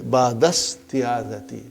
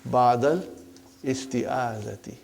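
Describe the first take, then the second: First: The words run together, dropping the 'i' sound. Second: The 'i' of 'isti' is pronounced separately. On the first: The speaker calls it right. "so it will say Ba'dasti'azati" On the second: The speaker calls it wrong. "for simplicity ... we can say Ba'dal isti'azati"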